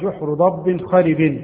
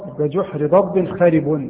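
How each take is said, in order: First: The last word ends with an -in sound. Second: The last word ends with an -un sound. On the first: The last word takes its case from the word beside it. "خارب لان ضب مكسوره" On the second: The last word describes the burrow, not the lizard. "خارب خبر مرفوع بالضم"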